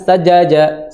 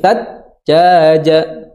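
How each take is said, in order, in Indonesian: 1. Bunyi j pendek dan tidak ditahan. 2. Bunyi j ditahan dengan jeda singkat. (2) "ditahan dulu atau di dikasih jeda"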